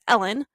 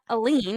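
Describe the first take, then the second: First: The name is said to sound like 'Ellen'. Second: The name is said to sound like 'Aline'. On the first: The speaker calls it right. "it's Ellen" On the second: The speaker calls it wrong. "I've been saying it wrong this whole time. It's not Aline"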